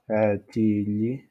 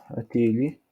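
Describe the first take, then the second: First: "atili" drawn out slowly, a-ti-li; articulation lente. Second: Said in the usual way. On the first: Shown as a demonstration. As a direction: stretch each syllable of "atili". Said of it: "on dit ici". (« atili » lentement, syllabe par syllabe) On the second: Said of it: "on peut dire".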